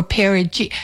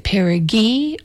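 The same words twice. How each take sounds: First: "perigee" with a soft G, ending like "jee". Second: "perigee" with a hard G, ending like "ghee". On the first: Host weighing the other option, "perigee" with a soft G. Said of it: "or was it a soft G". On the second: Host recalling old doubt, "perigee" with a hard G. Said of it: "was it a hard G". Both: Shown as a demonstration.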